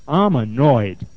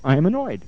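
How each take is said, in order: First: Lower, firmer imitation of the client; deeper voice. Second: Said in the usual way. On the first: Client hitting the pillow, voice getting deeper. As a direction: drop the pitch and push it out. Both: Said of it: "her voice got a little bit deep".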